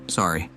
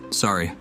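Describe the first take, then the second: No difference in how they are said.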